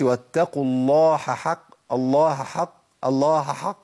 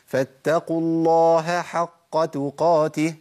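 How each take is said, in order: First: الله حق with the ه merged into the ح; a deliberately wrong take, ه swallowed into حق; mock mistake. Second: الله with its ه clearly heard before حق, slow; correct h before ḥ. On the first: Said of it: "ما اقولش". (الخطأ: إدغام الهاء في الحاء) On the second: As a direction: keep the ه apart from the ح. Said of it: "لازم أقول". (الصواب: إظهار الهاء قبل الحاء) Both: Shown as a demonstration.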